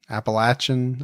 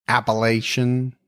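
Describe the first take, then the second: First: Appalachian with a short A and a ch; "latch-un" ending on Appalachian; short-A pronunciation. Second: Appalachian with a long A and a soft sh; "lay-shun" ending on Appalachian; long-A pronunciation. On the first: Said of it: "I don't even know how I said it". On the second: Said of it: "pronunciation of". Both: Shown as a demonstration.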